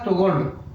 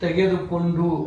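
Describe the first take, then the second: First: The word is said in a short, clipped form. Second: The word is said in its full, long form. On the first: This is the everyday spoken form. "बोलचाल के भाषा में सीधा" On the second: This is the bookish, written form. "अगर लिपि की भाषा में अगर पढ़ोगे"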